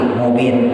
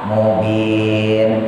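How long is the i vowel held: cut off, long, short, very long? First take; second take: cut off; long. First: The vowel is cut off without lengthening. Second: The long vowel is held for four counts. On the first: The speaker calls it wrong. "jangan langsung mati" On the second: The speaker calls it right. "Boleh dibaca empat"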